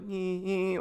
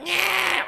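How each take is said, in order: First: Imitated funny laugh. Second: Loud, very high "nyeh" squawk; imitated pronounced bleat. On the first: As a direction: mimic an odd little laugh, pitched up. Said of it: "like, a funny laugh". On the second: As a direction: bleat it out loud, mimicking a disruptive noise. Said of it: "then it got more pronounced".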